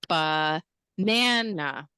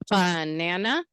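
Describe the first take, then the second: First: The stress is on the middle syllable. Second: The stress is not on the middle syllable. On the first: The speaker calls it right. "Yeah, the stress is in the middle syllable" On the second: The speaker calls it wrong. "is it banana? No"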